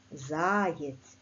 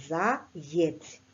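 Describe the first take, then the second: First: "Заєць" with a long stressed first syllable ЗА. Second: "заєць" split in two, ЗА, pause, ЄЦЬ; syllable-by-syllable spelling pronunciation. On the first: Teacher showing pupils where the stress falls, stressed first syllable. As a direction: draw out the ЗА in "Заєць". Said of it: "Наголос падає на перший склад". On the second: Teacher helping pupils remember the letter Є, split into syllables. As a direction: separate "заєць" so the Є is clearly heard. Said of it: "Букву «Є» слід запам'ятати, що ми пишемо". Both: Shown as a demonstration.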